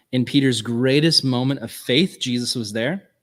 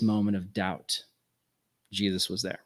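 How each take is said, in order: First: "greatest" and "faith" punched louder. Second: Lower, falling away softly on "there"; hushed low point. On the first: Preacher recalling Peter's faith, emphatic and lifted. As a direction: lift "faith", leaving "there" rising and open. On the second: Preacher recalling Peter's doubt, subdued and tender. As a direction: let "doubt" sink, then softly "Jesus was there". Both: Shown as a demonstration.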